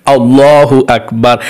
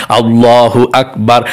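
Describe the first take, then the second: Both takes have the same delivery.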